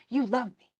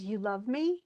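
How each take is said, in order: First: "You love me." falling flat at the end; "You love me." said as a sure statement, no question in it; statement tune. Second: "You love me?" rising at the end, faltering; "You love me?" as a hesitant question, lifting at the end; questioning tune. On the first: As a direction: state it as fact, the pitch dropping on "me". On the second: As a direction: ask it, unsure, with the pitch going up on "me". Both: Retold or imitated. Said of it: "before she said".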